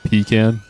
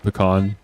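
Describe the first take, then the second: First: The first vowel is a long E sound. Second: The first vowel is not a long E sound. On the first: "Long E" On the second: "you could say pecan or something like that"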